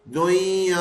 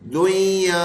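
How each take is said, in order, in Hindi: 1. बीच की 'n' ध्वनि पूरी तरह छोड़ दी जाती है। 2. बीच की 'n' ध्वनि पूरी तरह छोड़ दी जाती है।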